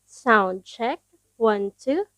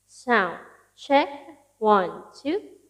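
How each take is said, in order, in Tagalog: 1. Tuyo ang boses, walang dagdag na echo. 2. May dagdag na echo effect ang boses. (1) "ito po ang boses ko kapag po naka V eight live sound card" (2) "lalagyan natin ng konting echo"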